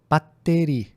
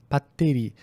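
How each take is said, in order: Both takes have the same delivery.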